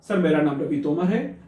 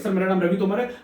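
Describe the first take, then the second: First: It is spoken slowly and calmly. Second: It is spoken quickly and hurriedly. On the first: The speaker calls it right. "सहजता के साथ आप बोलेंगे" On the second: The speaker calls it wrong. "जल्दी जल्दी नहीं बोलना है"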